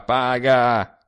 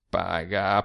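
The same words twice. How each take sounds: First: Louder insistent second paga; urging. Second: Said in the usual way. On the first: A narrator's reading. Sturzi urges the narrator to pay, louder. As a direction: press him to pay now. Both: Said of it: "urging him to pay".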